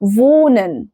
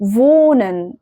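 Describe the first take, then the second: No difference in how they are said.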